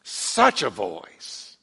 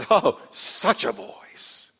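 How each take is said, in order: First: "Such a voice" repeated lower and very slowly; deeper awed echo. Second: Awed hush. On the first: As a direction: let it sink in, hushed. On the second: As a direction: linger on it in wonder. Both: Acted. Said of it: "I love the way he calls it".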